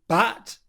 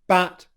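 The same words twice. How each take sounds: First: The vowel is the front 'a' as in cat. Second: The vowel is the front 'a' as in cat.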